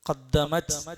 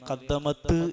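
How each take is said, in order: First: The final t stops quietly without a bounce. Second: The final t is released with an echoing bounce. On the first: The speaker calls it right. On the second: The speaker calls it wrong.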